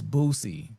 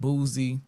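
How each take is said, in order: First: The middle consonant is a plain s sound. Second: The middle consonant is a buzzing z sound. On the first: The speaker calls it right. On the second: The speaker calls it wrong. "not Boozy"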